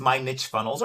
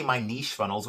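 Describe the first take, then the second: First: Niche said as "nitch", rhyming with rich; "nitch" pronunciation. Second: Niche said as "neesh", rhyming with leash; "neesh" pronunciation. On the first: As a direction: say Niche with a short i and a tch ending. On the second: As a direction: say Niche with a long ee and a soft sh ending. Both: Shown as a demonstration. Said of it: "whichever way you like to pronounce it".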